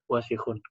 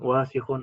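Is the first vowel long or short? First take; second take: short; long. First: The first vowel is kept short. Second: The first vowel is drawn out long. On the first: The speaker calls it right. "Harus pendek" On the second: The speaker calls it wrong. "kadang-kadang yang pendek dipanjangin ... itu salah"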